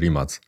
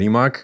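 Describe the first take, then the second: First: The name is said the native Croatian way. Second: The name is said the widely used international way. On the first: This is how the surname is read in its home country. "ale w Chorwacji czyta się to nazwisko Rimac" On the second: This is the commonly accepted form used worldwide. "Jest powszechnie uznane, zaakceptowalne mówienie Rimac"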